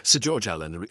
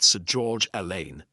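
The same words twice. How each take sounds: First: "Allen" said as AL-un, stress on the first syllable; corrected name pronunciation. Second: "Alleyne" said as a-LAYN, stress on the second syllable; mistaken name pronunciation. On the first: Speaker corrects himself on the baronet's name, saying "Allen" as AL-un. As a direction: say "Allen" with a short, unstressed ending. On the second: Speaker misnames the baronet in his talk, saying "Alleyne" as a-LAYN. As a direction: say "Alleyne" to rhyme its end with lane. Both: Real, not acted. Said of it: "God, get it right".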